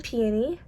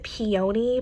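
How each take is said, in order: First: Said in the usual way. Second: PEONY said the way some other people do; alternative pronunciation. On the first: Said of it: "Some people pronounce it peony". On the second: Shown as a demonstration. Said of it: "Some people pronounce it".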